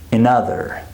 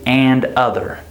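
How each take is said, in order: First: The first syllable is a reduced schwa. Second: The first syllable is a full, clear vowel. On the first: The speaker calls it right. "So it becomes the schwa sound, reduced" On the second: The speaker calls it wrong. "We don't say and other because this word is not stressed"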